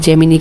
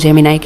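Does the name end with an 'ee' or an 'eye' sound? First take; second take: ee; eye. First: The name ends with an 'ee' sound. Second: The name ends with an 'eye' sound. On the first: "जेमिनी कह दो" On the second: "जेमिनाई कह दो"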